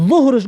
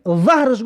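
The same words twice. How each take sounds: First: ظهرش said "zuhr-ash", with a u; u vowel. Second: ظهرش said "zahr-ash", with an a; a vowel. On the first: Teacher contrasting noon prayer with back, ظهرش with u. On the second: Teacher contrasting back with noon prayer, ظهرش with a. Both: Shown as a demonstration. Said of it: "بسیار اهمیت بده در تلفظ".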